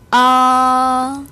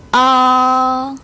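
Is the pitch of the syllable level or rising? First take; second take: level; level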